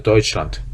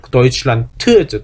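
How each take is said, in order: First: "Deutschland" ending on a hard t, fading softer; German final d devoiced. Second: Said in the usual way. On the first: Shown as a demonstration. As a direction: say "Deutschland", end on t. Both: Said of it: "끝에 데가 오는 게 T로 발음".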